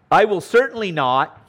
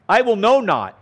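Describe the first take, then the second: First: Said in the usual way. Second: "know" stressed and raised in "I will know not"; literal Greek reading. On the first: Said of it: "the double use of words". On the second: Shown as a demonstration. Teacher showing the literal Greek, stressing "know". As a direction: spell out "know not" with weight on "know". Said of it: "literally in the Greek".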